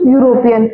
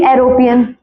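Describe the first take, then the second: First: यूरोपियन opening with a clear "yoo" sound; teacher modelling यूरोपियन with "yu" at the start; correct pronunciation. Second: एरोपियन opening on a bare "e" vowel; deliberate misreading, एरोपियन starting with "e"; wrong pronunciation. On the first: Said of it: "क्या पढ़ेंगे इसको". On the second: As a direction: say एरोपियन without the "yoo" glide. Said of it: "ये तो नहीं पढ़ेंगे". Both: Shown as a demonstration.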